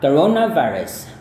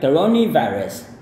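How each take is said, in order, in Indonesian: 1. Vokal sebelum 'virus' adalah 'uh' yang lembut. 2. Vokal sebelum 'virus' adalah 'ee'. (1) "karena bunyi akhirnya adalah e, ... dia berbunyi seperti a yang halus" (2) "Dia bisa selain ne, bisa juga ni"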